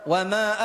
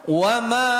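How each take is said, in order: No difference in how they are said.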